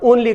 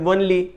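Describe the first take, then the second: First: The word starts with a plain vowel. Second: The word starts with a w sound.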